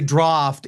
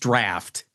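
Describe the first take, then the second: First: It is said with a posh, upper-class pronunciation. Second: It is said with a plain, everyday pronunciation. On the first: The speaker sounds like old-money, upper-crust types. The speaker calls it wrong. "I don't say draft" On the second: The speaker sounds like an ordinary, unpretentious person. The speaker calls it right. "It's draft"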